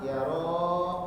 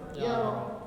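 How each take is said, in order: First: The final vowel is held long. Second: The final vowel is cut short. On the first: This is the verb's ordinary form. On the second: This is the verb in the jussive.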